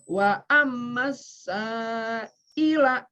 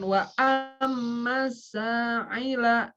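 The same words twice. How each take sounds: First: The consonant before 'ila' is a plain glottal stop. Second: The consonant before 'ila' is a throaty ain. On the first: The speaker calls it right. "jangan ketukar alif dengan ain" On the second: The speaker calls it wrong.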